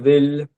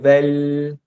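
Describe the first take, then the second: First: The vowel is rounded, moved toward o. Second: The vowel is a plain e, L held. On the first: "colocar o E um pouco mais pro lado do" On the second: "você pode tentar falar vele e prender o L no final"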